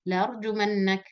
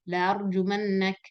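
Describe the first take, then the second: No difference in how they are said.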